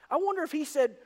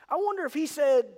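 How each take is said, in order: Both takes have the same delivery.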